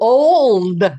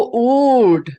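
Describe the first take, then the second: First: The L sound is clearly pronounced. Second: The L sound is weak or dropped. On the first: "we pronounce the L in um in old a lot more than they do there" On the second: "old was my favorite uh, Irish word"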